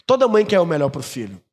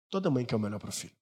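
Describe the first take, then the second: First: Said in the usual way. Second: Much softer, a bit quicker repeat; soft echo. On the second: Shown as a demonstration. Pastor echoes his point to the congregation, softly. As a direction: murmur it again to let it sink in.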